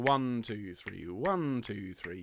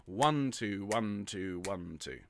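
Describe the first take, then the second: First: One, two, three with the stress on each "one"; counting in three. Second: One, two, one, two with the stress shifted across the bar; hemiola count in twos. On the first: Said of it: "instead of going". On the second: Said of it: "you change the emphasis". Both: Shown as a demonstration.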